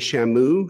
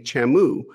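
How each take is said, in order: First: The word begins with an 'sh' sound. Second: The word begins with a 'ch' sound. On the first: "Instead of saying shamu" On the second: "she'll say chamu"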